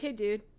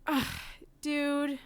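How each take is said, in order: First: It is said in a plain, casual tone. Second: It is said with an annoyed, exasperated sigh.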